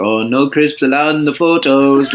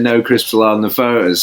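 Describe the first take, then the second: First: Put-on light Norwegian accent, a bit higher; Ole Gunnar Solskjaer Norwegian accent. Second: Said in the usual way. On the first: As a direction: say it like a Norwegian footballer. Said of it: "Norwegian accent going like". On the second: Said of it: "I remember him saying".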